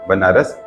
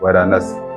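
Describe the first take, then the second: First: N comes second, then R. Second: R comes second, then N. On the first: This is the easier, later form. "बनारस बोलना आसान है" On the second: This is the older, rustic form. "वरानस में बोलना थोड़ा मुश्किल है"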